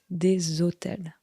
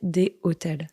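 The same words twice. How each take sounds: First: A linking z sound joins des to hôtels. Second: No linking z sound joins des to hôtels. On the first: The speaker calls it right. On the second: The speaker calls it wrong.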